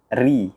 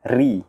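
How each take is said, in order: No difference in how they are said.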